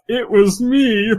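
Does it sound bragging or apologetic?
bragging. It is said in a bragging way.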